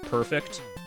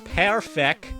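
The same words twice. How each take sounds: First: The final T sound is clearly said. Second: The final T sound is left off.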